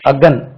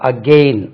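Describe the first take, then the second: First: The second syllable has a short 'e' vowel. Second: The second syllable has a long 'ay' vowel. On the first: "இனி ஒரு உச்சரிப்பும் இருக்கு"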